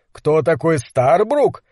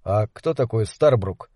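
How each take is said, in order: First: Incredulous echo. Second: Said in the usual way. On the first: Acted. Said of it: "переспросил Гэлен". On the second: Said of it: "спросил Кэл".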